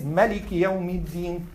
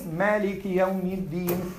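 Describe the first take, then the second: First: مَالِكِ said as "maliki", first "a" short; short first vowel. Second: مَالِكِ with a long "aa" in the first syllable; long first vowel. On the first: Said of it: "And who says". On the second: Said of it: "who says". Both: Shown as a demonstration.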